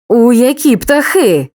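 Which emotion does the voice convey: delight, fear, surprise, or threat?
threat. The voice sounds threatening and menacing. The speaker is warning or threatening. "погрозу"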